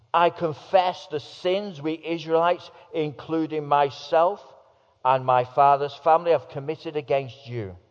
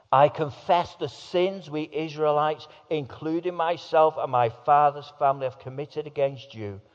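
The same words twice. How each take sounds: Both takes have the same delivery.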